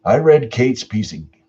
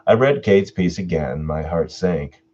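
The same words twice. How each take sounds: First: Said in the usual way. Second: Measured storyteller read; narrator voice. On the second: Shown as a demonstration. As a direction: slip back into the storyteller voice. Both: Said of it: "I should be saying this in my narrator voice".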